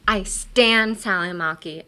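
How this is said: The word stan is strongly emphasized.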